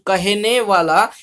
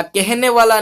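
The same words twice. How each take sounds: First: "कहने वाला" slowly with an open "ka-hne"; corrected pronunciation. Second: "कहने वाला" with a fronted first vowel, "kehne"; wrong pronunciation. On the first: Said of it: "कहने वाला नहीं". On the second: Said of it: "नहीं". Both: Shown as a demonstration.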